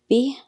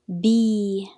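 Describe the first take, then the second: First: The vowel after b is short. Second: The vowel after b is long. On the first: "with kasra we say b" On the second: "with ya we say b"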